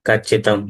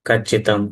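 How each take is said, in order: Both takes have the same delivery.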